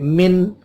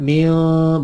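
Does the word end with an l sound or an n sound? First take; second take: n sound; l sound. First: The word ends with a clear n sound. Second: The word ends with an l sound. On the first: The speaker calls it right. "tapi min" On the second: The speaker calls it wrong. "jangan mil bukan"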